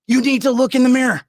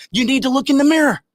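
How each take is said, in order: First: Loud repeated demand; angry. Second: Loud, high, furious order; angry. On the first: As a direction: drive it in again. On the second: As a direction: hammer it home in anger. Angry rant. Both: Real, not acted.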